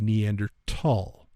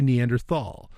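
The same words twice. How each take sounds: First: The final syllable starts with a t sound. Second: The final syllable starts with a th sound. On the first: The speaker calls it right. "the pronunciation of that word is actually Neanderthal. It's T H, but it's Neanderthal" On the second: The speaker calls it wrong. "it's not actually Neanderthal"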